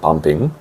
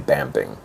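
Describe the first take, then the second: First: It is said with a Korean pronunciation. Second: It is said with an English pronunciation. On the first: "Of course, we pronounce it bumping" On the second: "in English we would say bamping"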